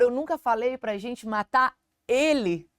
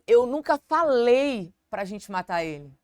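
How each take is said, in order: First: The word ele carries the stress. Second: The word falei carries the stress. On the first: Another person was meant to be killed. "Talvez não era pra matar ele, era pra matar outra pessoa" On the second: It may have been suggested without being said. "A ênfase no falei"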